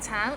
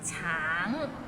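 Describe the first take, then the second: First: The word ends without the nasal ng sound. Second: The word ends with a nasal ng sound. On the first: The speaker calls it wrong. "Not like tang" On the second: The speaker calls it right. "the end has a little ng, so it's a, a bit of nasal sound"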